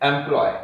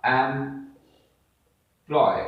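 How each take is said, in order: First: Said in the usual way. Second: "employ" as एम, long pause, ploy; very slowly break "employ" into two syllables. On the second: Shown as a demonstration. Teacher showing how we say it, "employ" split in two. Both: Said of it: "जब हमने बोला".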